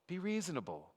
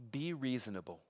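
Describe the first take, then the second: First: Higher coaxing repeat. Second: Said in the usual way. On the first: Acted. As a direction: say "Be reasonable." again pitched higher, pleading. Preacher voicing the envoy's demand.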